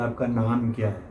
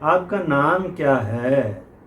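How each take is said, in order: First: It is said flat, without a tune. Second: It is said with a lively tune.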